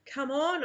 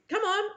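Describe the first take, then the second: First: Said in the usual way. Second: High, eager "Come on" to a sister; "Come on" pitched way up, bright and playful; eager call. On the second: A narrator's reading. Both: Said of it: "I say to Bibby".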